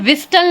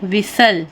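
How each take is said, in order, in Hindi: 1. यह शब्द t की आवाज़ के साथ बोला जाता है। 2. यह शब्द बिना t की आवाज़ के बोला जाता है। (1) "अब हम ऐसे विस्टल नहीं पढ़ते" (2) "तो हम इस टी को साइलेंट कर देंगे"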